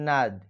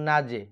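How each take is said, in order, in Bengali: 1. শেষের j সাধারণভাবে প্রতিধ্বনি ছাড়াই থেমে যায়। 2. শেষের j একটি ছোট প্রতিধ্বনিত স্বরের সঙ্গে ঝাঁকি দিয়ে ওঠে। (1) "এখানে হয় নাজ" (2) "কিন্তু আমরা বলবো নাজে"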